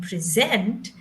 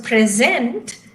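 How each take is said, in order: First: "present" as pre-ZENT, verb stress; stress on second syllable. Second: Slow "present", PRE stressed; stress on first syllable. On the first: Teacher explaining the verb, "present" stressed late. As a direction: lean on the end of "present". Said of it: "is to present a presentation". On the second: Teacher explaining the gift word, "present" stressed early. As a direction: draw out "present", stressing its beginning. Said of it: "P R E is stressed at the beginning". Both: Shown as a demonstration.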